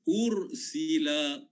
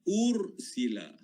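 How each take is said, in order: Both takes have the same delivery.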